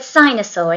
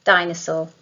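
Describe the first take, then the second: First: "sinosaur" with an s sound where the d should be; "sinosaur", an s replacing the d; child's error. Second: "dinosaur" with a clear, stressed d at the start; "dinosaur", the d sound made crisp; corrected d sound. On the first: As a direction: say "sinosaur" with an s at the start, as the child does. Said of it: "You said sinosaur instead of dinosaur". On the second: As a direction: model "dinosaur" with a firm d. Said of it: "Let's try and make it a death sound". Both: Shown as a demonstration.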